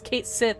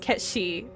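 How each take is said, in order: First: The name is said as 'Kate Sith'. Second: The name is said as 'Ketchi'. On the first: This is the game's official anglicized pronunciation. The speaker calls it wrong. "they confirmed that the correct pronunciation was" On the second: This is the Scottish Gaelic pronunciation. The speaker calls it right. "His name is Kate is Ketchi. Thank you very much"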